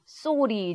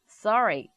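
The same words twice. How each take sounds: First: It is said with a plain Korean-style accent. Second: It is said with a rolled American-style accent. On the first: "토종 발음은 sorry 정도로 하겠고" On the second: "버터를 좀 발랐더니 sorry"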